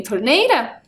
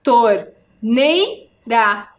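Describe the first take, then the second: First: Said in the usual way. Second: "Torneira" split into tor, nei, ra with pauses; syllable by syllable. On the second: Shown as a demonstration. Teacher counting syllables on fingers with pupils, "Torneira" split apart. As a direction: count out "Torneira" slowly, piece by piece. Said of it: "Faça comigo com os dedos".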